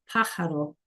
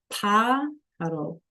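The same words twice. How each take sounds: First: Said in the usual way. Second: Pájaro stretched out slowly, each syllable clear; slow careful teacher model; slow demo. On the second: Shown as a demonstration. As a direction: model the hard word slowly. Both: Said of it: "It's a hard word".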